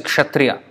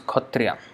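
First: The word begins with a ksh sound. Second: The word begins with a kh sound. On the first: This is how the word is written. "The spelling is kshatriya" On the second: This is how Bengali speakers say it. "but the way they pronounce is khatriya"

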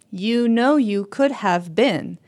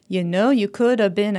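First: The words "could have been" are said fully and clearly. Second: The words "could have been" are reduced and run together. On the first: The speaker calls it wrong. "They don't sing" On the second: The speaker calls it right. "That part gets reduced"

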